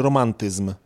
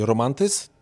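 First: "romantyzm" with the m fully audible; sounded final m. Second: "romantyzm" said as "romantys"; dropped final m. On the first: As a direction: articulate the last m of "romantyzm". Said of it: "czy romantyzm". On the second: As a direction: leave the m off "romantyzm". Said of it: "bez tego M na końcu". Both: Shown as a demonstration.

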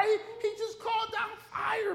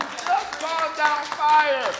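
First: Very high, amused disbelief; high-pitched amazed retort; incredulous squeal. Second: Loud, high, drawn-out exclamation; big shouted reminder; incredulous shout. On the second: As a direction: belt it out slowly in disbelief. Same retort, now shouted. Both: Acted.

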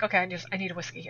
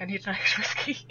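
First: Said in the usual way. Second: Laughing correction. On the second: Retold or imitated.

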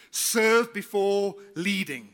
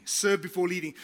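First: Slow, weighty, each word spaced; slow emphatic slogan. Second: Said in the usual way. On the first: Shown as a demonstration. Pastor stressing the motto to his congregation, slow and emphatic. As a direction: drive the key phrase home slowly.

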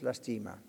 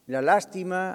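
First: Lastima stressed on the middle syllable, las-TI-ma; deliberate lastima, leaning on TI; accent shifted to TI. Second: Lástima stressed on its first syllable, LÁS; measured La lástima, leaning on LÁS; accent on LÁS. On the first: Pastor lands his own wordplay, lastima with stress on TI. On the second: Pastor quotes his own wordplay, slow lástima with stress on LÁS. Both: Shown as a demonstration. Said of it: "en vez de lástima es lastima".

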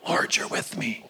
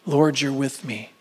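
First: Lower, softer, whispered prayer. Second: Said in the usual way. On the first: Acted. Repeats line, then whispers.

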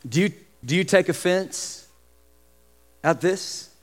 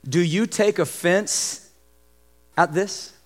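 First: Hushed repeat of do you take offense; quieter repeat. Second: Quiet, slow do you take offense; slow, soft question. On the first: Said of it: "repeated for emphasis". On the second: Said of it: "quoted then repeated". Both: Shown as a demonstration.

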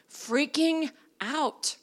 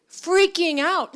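First: Said in the usual way. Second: Freaking out said louder and slower, Freaking punched; stress on Freaking. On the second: Shown as a demonstration. Preacher to congregation, stressing Freaking, louder and slower. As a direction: lean hard into the word Freaking.

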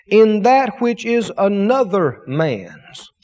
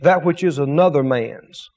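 First: Said in the usual way. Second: "another man's" set apart, lower and deliberate; stress on another man's. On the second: Shown as a demonstration. Preacher rereading the verse to the church, stressing another man's. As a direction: land on "another man's" as the key words. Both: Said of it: "He emphasized to me that those two words".

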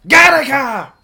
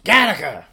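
First: High, loud yell of Gattaca. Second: Yelling Gattaca. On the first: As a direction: bellow Gattaca. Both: Shown as a demonstration. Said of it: "I yell Gattaca a lot".

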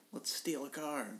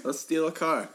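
First: Softer, higher mock-sly pitch; hushed suggestion. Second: Louder, higher repeat of the gag; loud joking proposal. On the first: Suggesting a joke crime to a friend, hushed. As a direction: float it quietly as a joke. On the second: Retold or imitated. Repeating the joke for the crowd, loud. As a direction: belt it out as a joke.

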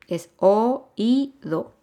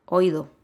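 First: "oído" slow in three syllables, o-í-do, stress on í; correct, syllable by syllable. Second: "oído" squeezed into two syllables, oí-do; wrong, run together. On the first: Teacher showing students the correct oído, slow and split. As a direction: split oído into three clear beats, very slowly. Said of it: "no, es oído". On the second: Teacher showing students the wrong oído, run together. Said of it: "no es oído". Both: Shown as a demonstration.

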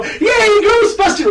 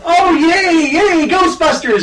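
First: High, strained grown-up cheer; cheer, then notice the skirt; now older, cheering for Ghostbusters; grown-up yay. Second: Put-on high, bright kid's yay; little kid cheering for Ghostbusters; childlike cheer. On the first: Retold or imitated. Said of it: "now that I'm older, I go". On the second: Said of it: "it went from".

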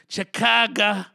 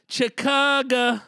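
First: Hyped city call. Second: High, slow, stretched "Chicago" like a crowd hype; drawn-out call. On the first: Hyping the city. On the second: Hyping a fan from Chicago, high stretched call "Chicago". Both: Acted.

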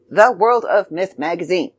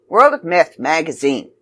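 First: "The" set out clearly at the front; don't swallow "The", say it distinctly; stress on The. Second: Said in the usual way. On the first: Shown as a demonstration. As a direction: give the word "The" its own deliberate beat. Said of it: "forgetting to say the, or I'm not saying it loud enough". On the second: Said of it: "I keep forgetting to say the".

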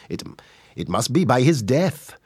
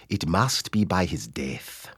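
First: Higher, lilting Welsh accent; sing-song Welsh delivery. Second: Slow, deliberate East African accent; measured East African delivery, word by word; strong East African accent. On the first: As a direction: give it a Welsh valleys lilt. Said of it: "if you were doing it in Welsh". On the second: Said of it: "the strongest East African accent". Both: Shown as a demonstration.

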